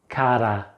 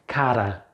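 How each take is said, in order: The two takes are said the same way.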